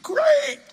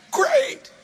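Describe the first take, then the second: First: Much higher, falling mock disappointment; mock sulky great. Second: Much higher, rising sarcastic twist; mock sarcastic great. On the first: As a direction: sulk it out in jest. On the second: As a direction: toss it off with jokey sarcasm. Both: Mock sulking about bigger plane.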